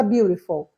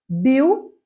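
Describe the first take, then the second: First: Said in the usual way. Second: "Beautiful" in three separate beats, long pauses between; split into syllables. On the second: Shown as a demonstration. Teacher counting syllables for students, "Beautiful" broken into three. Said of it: "São três sílabas".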